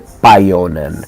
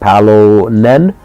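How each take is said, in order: First: The middle consonant is a Y sound. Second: The middle consonant is an L sound.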